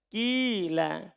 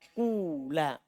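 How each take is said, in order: First: The first vowel is a pure i sound. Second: The first vowel is a pure long u sound. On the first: "Boleh ikhlas kasro dibaca apa? Kila" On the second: "Boleh ikhlas domma ... Kula"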